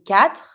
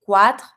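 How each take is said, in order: First: Quatre said with a plain k, "katr"; mute U. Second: Quatre mispronounced with kw, as "kwatr"; wrong quatre beginning "kwa"; wrongly sounded U. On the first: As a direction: start quatre with k, no W sound. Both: Shown as a demonstration. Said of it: "The U is mute".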